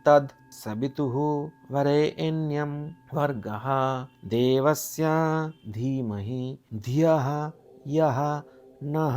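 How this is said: Each word is said separately with pauses between. "একটা একটা করে পদ যদি আলাদা আলাদা করে নিয়ে পড়ি"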